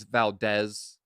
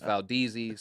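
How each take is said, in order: First: Valdez ending in "dez", with a short eh; Spanish-style pronunciation. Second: Valdez said as "val-DEE-zee"; nickname pronunciation. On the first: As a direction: say Valdez with an open e, like "val-DEZ". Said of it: "So it's actually Valdez". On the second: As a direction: stretch Valdez into the nickname, rhyming with sleazy. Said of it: "This is where D Z comes from". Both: Shown as a demonstration.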